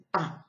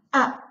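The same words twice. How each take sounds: First: A said softer and lower, mouth only half open; small, restrained A sound; moderate A. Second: A with the mouth stretched wide open; big, wide-open A sound; exaggerated A. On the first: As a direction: hold back on the A. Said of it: "on n'exagère pas trop". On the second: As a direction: overdo the A shape. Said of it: "en exagérant". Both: Shown as a demonstration.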